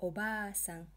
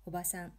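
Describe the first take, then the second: First: "baa" in Obaa-san drawn out; long "aa" in Obaa-san; long vowel. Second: "ba" in Oba-san kept short; single-beat "a" after the b in Oba-san; short vowel. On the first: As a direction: hold the middle vowel of Obaa-san for two beats. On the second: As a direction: say Oba-san compactly, every vowel brief. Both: Shown as a demonstration. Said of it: "you really have to pronounce it properly".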